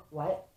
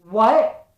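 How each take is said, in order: First: Stunned disbelief. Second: Loud, higher shout of disbelief; astonished outburst. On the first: Stunned first reaction to good news. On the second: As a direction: burst out with a big rising what. Stunned repeat, reacting to good news. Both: Retold or imitated.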